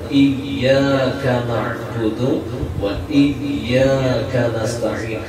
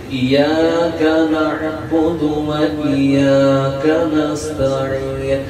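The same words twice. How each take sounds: First: The y sound in iyyaka is doubled. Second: The y sound in iyyaka is single. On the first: Only You we worship. The speaker calls it right. "Iya-nya itu pakai tasydid" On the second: Only the sun we worship. The speaker calls it wrong. "jikalau dibacanya tanpa tasydid"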